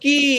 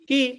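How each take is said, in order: First: The vowel is held long. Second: The vowel is cut short. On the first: "એક છે લાંબુ છે" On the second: "બીજું છે ઈ ટૂંકું છે"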